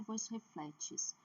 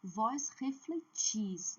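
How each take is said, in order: First: "vós refletes" com força em FLE, final fraco; tônica errada em FLE. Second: "Vós refletis" bem lento, força na última sílaba; tônica em TIS. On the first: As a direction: diga "vós refletes" acentuando a penúltima sílaba. ("vós refletes" como exemplo errado, FLE forte e "tes" fraco) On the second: ("Vós refletis" didático, com TIS forte) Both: Shown as a demonstration. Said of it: "não é vós refletes".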